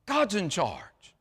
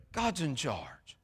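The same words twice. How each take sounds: First: Said in the usual way. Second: Much softer, slow, lower repeat; hushed echo. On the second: Shown as a demonstration. Preacher echoing his point to the church, hushed and slow. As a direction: let it sink in, softly and slowly.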